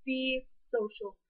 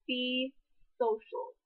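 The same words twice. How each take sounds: First: Slow, deliberate "Be social"; drawn-out stress on "Be social"; emphatic repeat. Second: Said in the usual way. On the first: Shown as a demonstration. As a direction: lean on "Be social", spaced out. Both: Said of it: "I cannot exaggerate that anymore".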